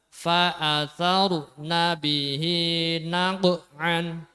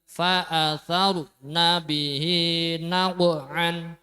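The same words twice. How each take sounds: No difference in how they are said.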